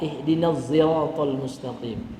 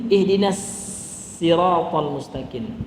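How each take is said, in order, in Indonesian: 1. Siratal dimulai dengan bunyi z. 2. Siratal dimulai dengan bunyi s. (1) "Ada juga yang dibaca dengan za" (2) "dalam qiraat yang lain dibaca sin"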